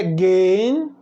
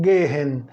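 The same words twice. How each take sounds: First: "gehen" said "gehn", one long syllable; silent H. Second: "gehen" in two syllables, "GE-hen" with audible H; wrongly sounded H. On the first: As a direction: drop the H in "gehen", holding the e. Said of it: "Aí você pode perguntar". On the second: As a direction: breathe a clear H inside "gehen". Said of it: "Aqui tem um H e eu não digo". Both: Shown as a demonstration.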